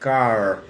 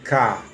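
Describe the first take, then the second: First: The final R is clearly pronounced. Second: The final R is left silent. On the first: "na Inglaterra não se diz car" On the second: "não torce os R's"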